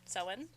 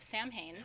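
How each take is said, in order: First: It is not pronounced the way it's spelled. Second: It is pronounced just the way it's spelled. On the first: The speaker calls it right. "Both are correct pronunciations" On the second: The speaker calls it wrong. "It looks like that. That's not how you say it"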